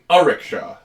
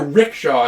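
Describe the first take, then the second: First: The word starts with an extra vowel sound. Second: The word starts directly with an R sound. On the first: The speaker calls it right. "It's an a rickshaw" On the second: The speaker calls it wrong. "It's not a rickshaw"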